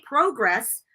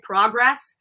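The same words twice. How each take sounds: First: Progress with a long "oh": "PROH-gress"; British pronunciation. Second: Progress with a short open "ah": "PRAH-gress"; American pronunciation. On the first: Showing what would seem putting on airs, Progress said British "PROH-gress". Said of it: "think I'm, like, putting on airs". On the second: Explaining her accent to the interviewer, Progress said American "PRAH-gress". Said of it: "the way that I said". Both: Shown as a demonstration.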